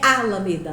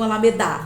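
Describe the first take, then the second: First: The stress is on the first syllable. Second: The stress is on the last syllable. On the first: "Não é alameda, não vou grifar o A" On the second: "não é o da"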